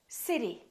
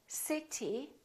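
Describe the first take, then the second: First: The T is a quick D-like sound. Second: The T is a clear T sound. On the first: The speaker calls it right. "we say" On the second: The speaker calls it wrong. "We don't say"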